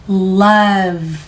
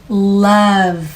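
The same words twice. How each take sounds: Both takes have the same delivery.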